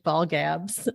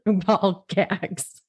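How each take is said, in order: First: "ball gabs" with a soft b ending, not g; misread ball gabs. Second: "ball gags" said carefully with a clear hard g; corrected ball gags. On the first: Reading the search result aloud, "ball gabs" misread. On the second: Correcting herself to her co-host, "ball gags" said right. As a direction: fix it to "ball gags" with a laugh. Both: Real, not acted.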